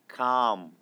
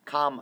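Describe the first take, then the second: First: The vowel is long and drawn out. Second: The vowel is short and clipped. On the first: The speaker calls it right. "모음을 길게 좀 끓이는군요" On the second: The speaker calls it wrong. "calm 아니고"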